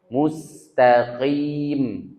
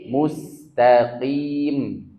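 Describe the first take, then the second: The two takes are said the same way.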